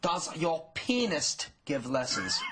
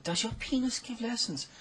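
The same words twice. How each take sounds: First: Slow, pointed mother's voice; a hint of an indignant mom; stern mother. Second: Put-on high girlish repeat of the question; teen girl voice. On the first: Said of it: "her mother stormed over and she said". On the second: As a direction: ask it again, innocent and high. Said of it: "And she said".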